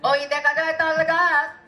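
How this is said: It is delivered like a fervent religious sermon. "কোনো ওয়াজের মাহফিলে বলি"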